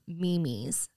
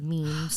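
First: The word is said as two syllables, like 'me-mes'. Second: The word is said as one syllable, 'meems'. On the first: This is how an older relative says it. The speaker calls it wrong. "I have an aunt who calls them memes" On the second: This is the usual way to say it. The speaker calls it right. "instead of memes"

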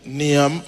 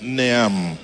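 First: The ending is said with an added i sound. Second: The ending is said as a-u-m. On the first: The speaker calls it wrong. "otherwise, Neam, I don't see an I" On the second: The speaker calls it right. "It's an A-U-M"

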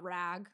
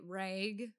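First: The word is said in a standard accent. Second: The word is said in a Wisconsin accent. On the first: "not rag" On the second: "I'm from Wisconsin, so we say rag"

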